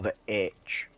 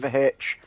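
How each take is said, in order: First: The letter name is said the common way. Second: The letter name is said in the local dialect. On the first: "As everyone else says" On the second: "it is usually the H"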